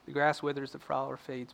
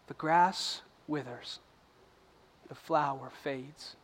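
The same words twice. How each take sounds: First: It is read quickly without much feeling. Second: It is read slowly and with deliberate weight. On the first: The words are read as a routine. The speaker calls it wrong. "Most of the time we read the Word like this" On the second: The words are read with purpose and reflection. The speaker calls it right. "read the Word with purpose out loud to yourself like this"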